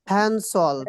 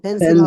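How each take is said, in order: First: The word begins with an f sound. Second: The word begins with a p sound. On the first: The speaker calls it wrong. "ফ্যানসল, এটা কি হবে?" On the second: The speaker calls it right. "পেন্সিল হবে"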